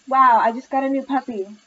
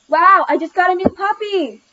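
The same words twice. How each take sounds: First: It is said at a normal volume. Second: It is said extremely loudly.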